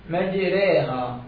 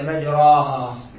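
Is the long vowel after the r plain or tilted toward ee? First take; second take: tilted; plain. First: The vowel after the r leans toward ee. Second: The vowel after the r is a plain open a. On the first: The speaker calls it right. "ميلناها علما للياء شوية" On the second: The speaker calls it wrong. "ما لفظت بألف عدلة"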